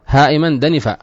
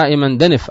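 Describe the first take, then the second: First: دنفا with an open long aa at the end; original alif ending. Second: دنف stopped on a bare f; final sukun. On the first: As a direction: finish دنفا on a held alif. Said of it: "أصلها إيش؟". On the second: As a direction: end دنف without any vowel. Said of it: "فإنه بسكون الفاء". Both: Shown as a demonstration.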